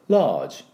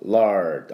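First: The r sound is dropped entirely. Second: The r sound is clearly pronounced. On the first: "イギリス系のR が、もう抜いてしまう場合" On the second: "R を入れる場合と"

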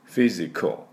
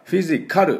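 First: The final syllable has almost no vowel. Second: The final syllable has a full clear vowel. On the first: The speaker calls it right. "ほとんど出しません。" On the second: The speaker calls it wrong. "フィジカルって言わないように、そこまでA の音は出しません。"

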